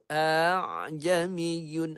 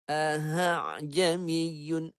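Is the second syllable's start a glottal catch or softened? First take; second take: softened; glottal catch. First: The middle sound is softened, without a catch. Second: The middle sound leans toward a glottal catch. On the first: This is the reading the speaker follows. "Yang ni dia, dia baca begitu" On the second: This reading comes from another teacher's chain. "Dia macam bunyi ke arah hamzah"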